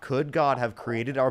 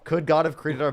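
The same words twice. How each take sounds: First: The phrase is spoken at a slower pace. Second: The phrase is spoken at a quicker pace.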